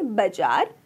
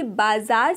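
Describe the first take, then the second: First: बाजार with a short first vowel, "ba-jaar"; shortened vowel. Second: Said in the usual way. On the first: Shown as a demonstration. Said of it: "प्राय एक मात्रा". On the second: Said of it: "एक मात्रा ह्रस्व हो जाती".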